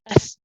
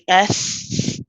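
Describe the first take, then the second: First: The sound is cut off quickly. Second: The sound is held for a while. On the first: The speaker calls it wrong. "we don't say S and stop" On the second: The speaker calls it right. "you let the sound keep going for a bit"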